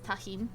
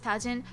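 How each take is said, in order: First: The word is pronounced without Japanese-style sounds. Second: The word is pronounced with Japanese-style sounds. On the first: The speaker calls it right. "It's more likely tajin, actually" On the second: The speaker calls it wrong. "My brain defaulted to Japanese pronunciation"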